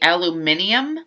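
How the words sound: The word is said the British way. The speaker calls it right. "it should be aluminium"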